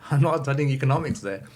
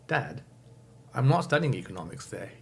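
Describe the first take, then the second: First: Louder and higher, stressing NOT; louder repeat. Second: Said in the usual way. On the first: Retold or imitated. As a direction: say it again, louder and more firmly. Repeating it after father's "What?.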